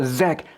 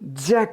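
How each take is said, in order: First: The syllable begins with a Z sound. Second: The syllable begins with a J sound. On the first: The speaker calls it right. "Z 발음해서 zack" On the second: The speaker calls it wrong. "정확히는 jack이 아니죠"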